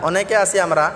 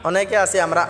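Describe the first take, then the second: Both takes have the same delivery.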